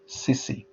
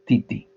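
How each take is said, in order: First: The word's consonants are s sounds. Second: The word's consonants are t sounds. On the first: "even though they're phonetically different" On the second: "t and s are non-contractive in Tongan"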